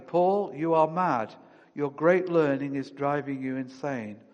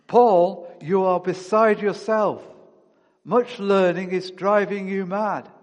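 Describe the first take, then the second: First: Called out loudly. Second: Loud, higher accusing cry. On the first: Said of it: "Festus called out loudly". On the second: Festus shouting at Paul in court, loud accusing voice. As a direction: call it out loudly at Paul. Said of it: "Festus said with a loud voice". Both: A narrator's reading.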